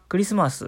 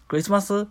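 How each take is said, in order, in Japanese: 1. 音の高さは普通に下がっています。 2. 音の高さは変で珍しいメロディーのように動いています。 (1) "クリスマスっていうおろす人" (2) "ちょっと変な、変なトーン"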